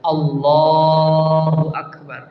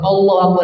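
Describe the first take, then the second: First: It is said in a quiet voice. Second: It is said in a loud voice.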